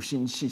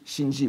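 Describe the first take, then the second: First: Shinshi with a voiceless sh in the second syllable; shinshi, both syllables starting with "sh"; unvoiced variant. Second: Shinji with a voiced j in the second syllable; voiced variant. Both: Shown as a demonstration. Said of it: "selon les prononciations".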